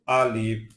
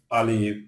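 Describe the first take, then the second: No difference in how they are said.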